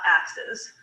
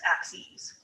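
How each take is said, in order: First: The word ends with a short 'siz' sound. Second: The word ends with a long 'seez' sound. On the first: The speaker calls it wrong. "It's not axes" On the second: The speaker calls it right. "it's axes"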